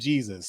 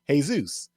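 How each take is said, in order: First: It is pronounced with English sounds. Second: It is pronounced with Spanish sounds. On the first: "Think of it like the name Jesus" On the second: "the Spanish pronunciation is"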